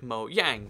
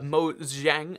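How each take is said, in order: First: The middle consonant is a 'y' sound. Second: The middle consonant is a 'zh' sound. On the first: "the J is a Y sound" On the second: "you know like Chinese Z- ZH sound"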